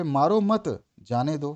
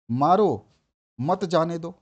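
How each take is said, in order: First: मारो मत joined with weight on मत, then जाने दो; pause after मत. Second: मारो loud and alone, then मत जाने दो; pause after मारो. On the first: Teacher showing students the opposite meaning, pause after मत. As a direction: link मारो to मत, break before जाने दो. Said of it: "भैया उसको मारो मत". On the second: Teacher showing meaning change by punctuation, pause after loud मारो. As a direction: punch मारो, stop, then run मत जाने दो together. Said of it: "यानी कि मारो उसको". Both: Shown as a demonstration.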